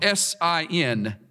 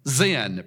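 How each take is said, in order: First: The name begins with an s sound. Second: The name begins with a z sound. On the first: The speaker calls it wrong. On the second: The speaker calls it right.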